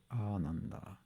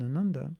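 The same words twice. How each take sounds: First: "Ananda" opening on a long, soft "aah"; long-vowel demo. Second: "Ananda" with a short first A; short-vowel demo. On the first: Correcting the word, "Ananda" with long first "aa". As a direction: draw out the first A of "Ananda", softly. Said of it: "it's Ananda". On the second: Showing the mistaken form, "Ananda" with short first vowel. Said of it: "is actually not Ananda". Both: Shown as a demonstration.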